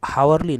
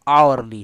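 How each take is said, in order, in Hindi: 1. शब्द की शुरुआत h की ध्वनि से होती है। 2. शब्द की शुरुआत स्वर की ध्वनि से होती है। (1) "ये हावरली नहीं" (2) "आवरली है"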